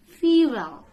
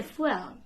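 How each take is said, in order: First: "Fuel" in two beats, FEE-well; loud, stretched "Fuel" as FEE-well; correct pronunciation. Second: "fuel" as one beat, FWELL; mispronunciation. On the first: Teacher corrects old habit, "Fuel" said loudly as FEE-well. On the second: Teacher shows old mistake, "fuel" said FWELL. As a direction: run "fuel" together as FWELL. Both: Shown as a demonstration. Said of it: "don't say fuel".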